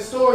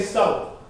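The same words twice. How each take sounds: First: Said in the usual way. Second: Country twang on "stove". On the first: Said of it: "It's an accent". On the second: Shown as a demonstration. Teacher showing how a twang changes store, country twang. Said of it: "you say something instead of store, you say".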